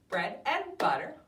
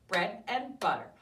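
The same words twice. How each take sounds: The two takes are said the same way.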